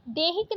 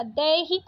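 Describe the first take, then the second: First: देहिक with closed e; wrong vowel. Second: Said in the usual way. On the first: Shown as a demonstration. Teacher rejecting a spelling, देहिक with plain e. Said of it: "देहिक नहीं होता". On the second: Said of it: "दैहिक होता है".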